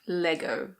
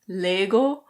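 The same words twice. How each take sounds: First: It is said with a British pronunciation. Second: It is said with a Danish pronunciation. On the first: "that's the British pronunciation" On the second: "in Danish it's something like Lego"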